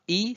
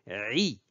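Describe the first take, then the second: First: A plain vowel with no throat sound. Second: The vowel starts with a tight throat sound. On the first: The speaker calls it wrong. "Ce n'est pas I" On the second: The speaker calls it right. "c'est plutôt I"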